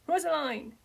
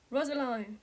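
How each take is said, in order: First: High, loud desperate scream of her name. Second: A breathless, frightened call of her name; a father gasping as he rushes to her; gasped name. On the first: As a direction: yell her name as she is dragged away. Father screams as daughter taken. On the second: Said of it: "he gasped". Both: A narrator's reading.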